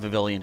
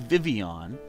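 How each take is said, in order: First: The name is said with the L sounds. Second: The name is said without any L sounds. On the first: The speaker calls it wrong. "I kind of just like saying Vivillion just for fun" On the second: The speaker calls it right. "it is supposed to be Vivian"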